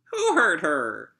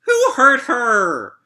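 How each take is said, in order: First: Said in the usual way. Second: High, slow, tearful wail; crying wail. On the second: Acted. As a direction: let the line break into a cry. Wailing the song line.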